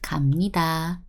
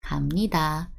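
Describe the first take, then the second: First: The consonant before nida is a soft m. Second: The consonant before nida is a soft m.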